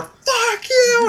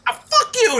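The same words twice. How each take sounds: First: High-pitched mob yell; imitated angry crowd shout. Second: High-pitched imitation of a tearful singer; lightly acted upset outburst; mock tearful. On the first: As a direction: shout it like thousands of hecklers. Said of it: "just yelling at her". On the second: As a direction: curse them as if giving up in tears. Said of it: "in tears".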